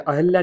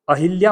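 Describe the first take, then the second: First: 'अहिल्या' with a short a after ह, no i; 'अहिल्या' without the i. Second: 'अहिल्या', middle vowel a clear short i. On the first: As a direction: say 'अहिल्या' as a-hal-ya. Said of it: "अहिल्या होता है". ('अहिल्या' को 'अहल्या' बोलें, बिना इ की मात्रा) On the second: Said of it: "अहिल्या नहीं होता है". ('अहिल्या' में ह पर छोटी इ की मात्रा) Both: Shown as a demonstration.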